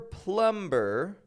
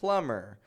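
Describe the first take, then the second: First: The B sound is clearly pronounced. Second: The B sound is silent. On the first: The speaker calls it wrong. "It's never plumber" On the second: The speaker calls it right. "No releasing the beat"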